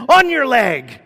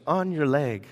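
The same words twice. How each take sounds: First: Much higher, much louder sudden yell; mock scare shout. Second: Said in the usual way. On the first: Local guy pranking a frightened girl holding snakes, mock scare shout. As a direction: yell it suddenly, imitating a prankster's false alarm. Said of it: "and so he said". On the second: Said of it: "somehow he had learned in English".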